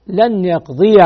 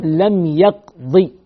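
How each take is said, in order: First: "يقضي" ending in a clearly sounded -ya; audible final fatha. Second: "يقضي" slowly, cut to a short final i; final ya dropped. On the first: Teacher repeating the accusative ending, "يقضي" voiced as yaqdiya. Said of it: "والنصب تظهر". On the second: Teacher showing the jussive, "يقضي" slow with a short final kasra. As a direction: say "يقضي" as yaqdi, ending on a kasra. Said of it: "كسرة، محذوف إيش؟". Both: Shown as a demonstration.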